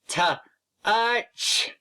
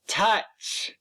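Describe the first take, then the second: First: The word is split into separate sound parts. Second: The word is said smoothly as one unit. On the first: "Now let's sound it out together" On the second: "say touch"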